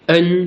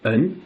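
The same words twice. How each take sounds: First: It is said with the first tone. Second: It is said with the second tone. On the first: "premier ton" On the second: "deuxième ton"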